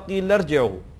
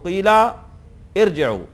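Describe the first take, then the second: First: The two words are joined without a pause. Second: There is a pause after the first word.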